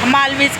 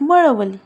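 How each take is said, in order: First: The name ends with a 'veej' sound. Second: The name ends with a 'lee' sound. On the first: The speaker calls it wrong. "मगाशी pronunciation चुकीचं केलं" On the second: The speaker calls it right. "It's exact मळवली"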